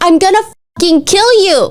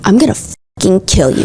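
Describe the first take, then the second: First: It is said in a desperate, unsinister tone. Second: It is said in a dark, sinister tone.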